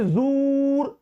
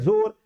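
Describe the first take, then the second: First: The vowel is a long 'oo' sound. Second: The vowel is a long 'o' sound. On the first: The speaker calls it wrong. "जूर नहीं ना बोलते हैं" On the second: The speaker calls it right. "बल्कि हम बोलते हैं जोर शोर"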